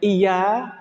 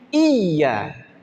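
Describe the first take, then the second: First: The middle consonant is short and single. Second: The middle consonant is doubled and held. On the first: The word comes to mean the sun. The speaker calls it wrong. "tanpa ada tasydid itu menjadi matahari" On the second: The word means only to You. The speaker calls it right. "Maka harus tasydid"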